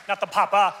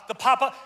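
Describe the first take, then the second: First: "papa" said loudly as the mistaken word; contrastive, louder "papa"; wrong papa. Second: "papa" said as the corrected word; intended papa. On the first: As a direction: stress "papa" as the one being ruled out. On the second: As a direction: land on "papa" as the right one. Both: Shown as a demonstration.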